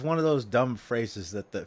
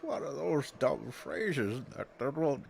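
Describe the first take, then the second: First: It is said in his normal voice. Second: It is said in a put-on old man voice.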